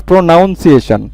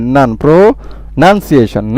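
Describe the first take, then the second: First: প্রোনাউন্সিয়েশন said with "noun" in place of "nun"; wrong pronunciation. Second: Slow teaching model of প্রোনাউন্সিয়েশন with "nun", not "noun"; correct pronunciation. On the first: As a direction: sound an "ow" in the middle of প্রোনাউন্সিয়েশন. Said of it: "not প্রোনাউন্সিয়েশন". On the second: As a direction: slowly split out "nun", then প্রোনাউন্সিয়েশন as "pro... nun-si-ay-shun". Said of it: "এন ইউ এন". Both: Shown as a demonstration.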